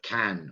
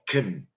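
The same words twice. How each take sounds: First: The word is said in full, strong form. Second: The word is reduced, with a weak vowel. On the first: "instead of "can,"" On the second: "or "can""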